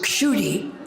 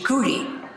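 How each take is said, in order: First: The name begins with a k-sh sound. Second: The name begins with a plain k sound. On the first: This is the original Sanskrit form. "my name in Sanskrit is" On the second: This is the Bengali form. "Prabhupada used the Bengali pronunciation"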